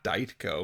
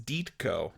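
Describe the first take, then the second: First: The first syllable sounds like 'die'. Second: The first syllable sounds like 'dee'. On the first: The speaker calls it wrong. "not Dietko" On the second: The speaker calls it right. "the D Y D sounds like deed"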